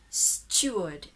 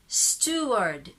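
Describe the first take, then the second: First: It is said with a British accent. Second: It is said with an American accent. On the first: "If it's British, you are going to say steward" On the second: "American, you say steward"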